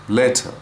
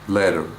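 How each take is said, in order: First: The T is released with a burst of air. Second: The T is a quick tap without burst.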